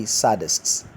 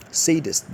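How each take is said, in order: First: Sadists said SAD-ists with a short a; wrong pronunciation. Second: Sadist said SAY-dist, higher and stressed; correct pronunciation. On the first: Teacher quoting how people wrongly say it. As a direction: show the wrong sadists with the a of cat. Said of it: "Sadist is wrong". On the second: Teacher giving the right form against the wrong. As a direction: model Sadist with a long SAY. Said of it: "The correct rendition of that word is". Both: Shown as a demonstration.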